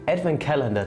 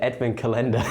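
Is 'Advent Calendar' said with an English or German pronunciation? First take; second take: English; German. First: It is said with an English pronunciation. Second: It is said with a German-style pronunciation. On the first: The speaker calls it right. "This is the right pronunciation" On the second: The speaker calls it wrong. "the Germanized version"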